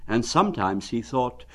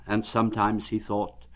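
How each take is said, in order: Both takes have the same delivery.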